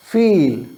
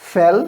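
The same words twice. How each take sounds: First: फील with a drawn-out "eee"; teacher's long-vowel demo of फील; long E sound. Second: फेल with a short "eh"; teacher's short-vowel demo of फेल; short E sound. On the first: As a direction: stretch the vowel in फील, "feeel". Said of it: "ई की लंबी sound आ रही है". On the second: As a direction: keep the vowel of फेल brief and open, "fell". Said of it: "short sound है". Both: Shown as a demonstration.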